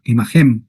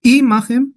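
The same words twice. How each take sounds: First: "Imahem" stressed on final HEM, lower; low-pitched "Imahem" with end stress; stress on last syllable. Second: "Imahem" stressed on the opening I, pitched high; stress on first syllable. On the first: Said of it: "¿Dónde está el acento?". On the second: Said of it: "¿Dónde se acentúa imahem?". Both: Shown as a demonstration.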